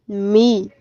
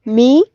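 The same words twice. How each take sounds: First: "mi" without lift, settling down; unstressed monosyllable. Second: First "mi" lifted with a rising tune; "mi" stressed, pitch climbing; stressed monosyllable. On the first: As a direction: let "mi" fall as the unaccented word. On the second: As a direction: raise "mi" as the accented word. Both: Shown as a demonstration. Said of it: "se distingue entre significados en pares de palabras".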